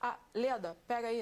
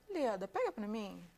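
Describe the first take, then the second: First: The request sounds blunt and rude. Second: The request sounds gentle and polite.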